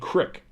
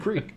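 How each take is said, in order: First: The vowel is a short 'ih' sound. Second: The vowel is a long 'ee' sound. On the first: The speaker calls it wrong. "you do this shit and it like saying crick" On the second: The speaker calls it right. "You know it's a creek"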